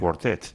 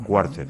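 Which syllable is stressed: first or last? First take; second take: last; first. First: The stress is on the last syllable. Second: The stress is on the first syllable. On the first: The speaker calls it right. "con el acento en la última" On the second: The speaker calls it wrong. "no quartet"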